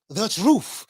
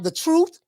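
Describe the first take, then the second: First: The word ends with an f sound. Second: The word ends with a th sound. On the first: "T H A T R U F F" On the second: "T R U T H"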